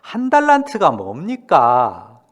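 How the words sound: It is said in a complaining tone.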